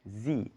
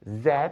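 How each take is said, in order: First: The letter is said the American way. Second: The letter is said in a non-American way.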